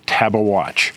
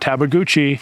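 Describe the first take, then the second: First: The name ends with a watch sound. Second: The name ends with a goochee sound. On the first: The speaker calls it right. "it's Tabawatch" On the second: The speaker calls it wrong. "the correct pronunciation is not Tabaguchi"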